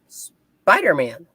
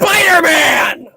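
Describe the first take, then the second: First: It is said in a calm, plain way. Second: It is said in an angry, enraged way. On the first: The speaker calls it wrong. "you're saying it wrong" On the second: The speaker calls it right. "I prefer him more enraged"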